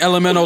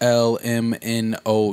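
First: The letters are run together as one unit. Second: The letters are separated with pauses between them. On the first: "like that's one letter" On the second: "You don't say it like that"

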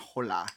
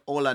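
First: The word starts with an H sound. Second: The word starts without an H sound. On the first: The speaker calls it wrong. "not hola" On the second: The speaker calls it right. "Like you say hola"

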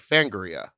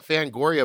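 First: It is said in an imitated, possibly Australian accent. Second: It is said in the speaker's usual pronunciation. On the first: This is how one particular person says the name. "he was like, Fangoria. He said it differently" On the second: This is how most people say the name. "we all call it Fangoria"

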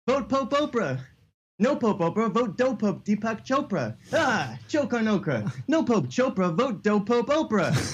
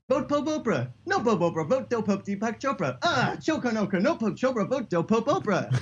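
First: It is said at a normal pace. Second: It is said noticeably faster.

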